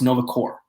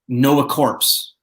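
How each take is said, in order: First: The final word ends without a 'ps' sound. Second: The final word ends with a clear 'ps' sound. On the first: The speaker calls it right. "It's Nova Corps" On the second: The speaker calls it wrong. "It's not Nova Corpse, people"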